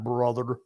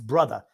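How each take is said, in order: First: It is said in a plain ordinary voice. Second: It is said in a gruff put-on wrestler voice. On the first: The speaker calls it wrong. "not brother" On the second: The speaker calls it right. "It's brother, ... It's not the King's English when he says that"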